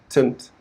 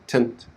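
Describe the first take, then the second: No difference in how they are said.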